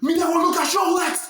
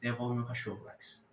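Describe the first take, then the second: First: It is said angrily, losing control. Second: It is said calmly, with control.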